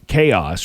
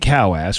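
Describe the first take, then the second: First: It is said with the usual 'kay-os' sound. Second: It is said as two words, 'cow ass'.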